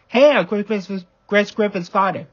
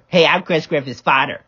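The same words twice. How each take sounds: First: Said in the usual way. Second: Lightly exaggerated copycat voice; mocking mimicry. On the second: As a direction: parrot the introduction back mockingly. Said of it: "I don't even sound like that".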